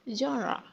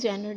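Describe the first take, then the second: First: It starts with 'zhon' and ends with 'ruh'. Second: It starts with 'jen' and ends with 'er'. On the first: The speaker calls it right. "आप कहेंगे जॉनरा" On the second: The speaker calls it wrong. "But ये बिल्कुल भी जेनर नहीं है"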